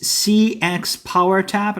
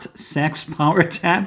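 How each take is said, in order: First: CEX is spoken as separate letters. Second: CEX is spoken as one word.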